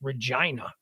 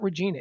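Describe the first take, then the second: First: The name is said the local Canadian way. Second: The name is said the American way. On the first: The speaker calls it right. "it's Regina, right?" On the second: The speaker calls it wrong. "it's not Regina"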